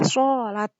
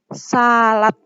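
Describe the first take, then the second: First: The first sound is thick, with rounded lips. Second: The first sound is thin, with flat lips.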